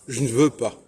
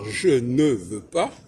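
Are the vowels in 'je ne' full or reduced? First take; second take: reduced; full. First: The vowels of je and ne are reduced. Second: The vowels of je and ne sound full. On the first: The speaker calls it right. "on va dire" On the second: The speaker calls it wrong. "on ne doit pas dire"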